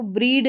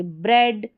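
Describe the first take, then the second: First: "ब्रीड" with a long ee; wrong EE vowel. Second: "ब्रेड" with a short open eh; correct short E. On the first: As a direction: say "ब्रीड" as a misreading with ee. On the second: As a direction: say "ब्रेड" with eh, not ee. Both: Shown as a demonstration. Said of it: "इसको ब्रीड नहीं पढ़ेंगे".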